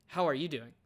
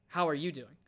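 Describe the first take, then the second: No difference in how they are said.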